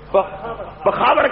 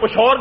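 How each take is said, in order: First: Three syllables with a kh sound in the middle. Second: Two syllables with a sh sound in the middle. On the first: This is how Pashto speakers say it. "Pashto بولنے کا بولنے والا پخاور کہتے ہیں" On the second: This is how people in the Hazara region say it. "Mansehra کے علاقے میں چلے جائے تو پشور کہتے ہیں"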